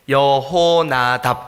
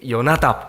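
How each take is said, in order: First: The middle h sound is clearly pronounced. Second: The middle h sound nearly disappears. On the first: "우리 성경 번역성에 여호나답 이렇게 돼 있잖아요" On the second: "이스라엘 사람들이 하는 발음을 들어보면 요나답 이렇게 들려요"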